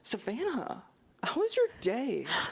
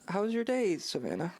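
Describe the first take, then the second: First: It is said with lively enthusiasm. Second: It is said flatly, without enthusiasm.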